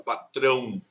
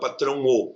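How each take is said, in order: First: The final o glides into the vowel before. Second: The final o is a separate full vowel. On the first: The speaker calls it right. "você fala patrão" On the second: The speaker calls it wrong. "você não fala patrão ou"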